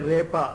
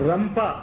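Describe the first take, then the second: First: It is said without an m sound, repa. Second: It is said with an m sound, rampa. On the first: "కొంతమంది రేప అంటారు" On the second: "రంప అని కొంతమంది దాన్ని ప్రొనౌన్స్ చేస్తారు"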